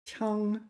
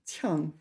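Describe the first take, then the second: First: The pitch stays high and level throughout. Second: The pitch falls sharply from high to low. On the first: "let's start off with first tone" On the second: "fourth tone"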